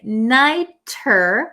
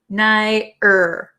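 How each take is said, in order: First: The middle consonant is a clear T sound. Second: The middle consonant is a quick D-like flap. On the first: The speaker calls it wrong. "instead of saying nighter" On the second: The speaker calls it right. "it becomes a flap T. So it makes a D, D sound"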